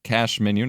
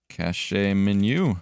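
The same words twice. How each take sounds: First: "Cache" said as one syllable, kash, like cash. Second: "Cache" said as two syllables, kash-ay, drawn out slowly; cache said as cash-ay. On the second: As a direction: stretch "Cache" into kash-ay on purpose. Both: Shown as a demonstration. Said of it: "not cache".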